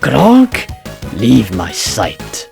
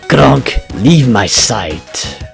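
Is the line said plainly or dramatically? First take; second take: dramatically; plainly. First: It is said in a dramatic way. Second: It is said plainly, without drama.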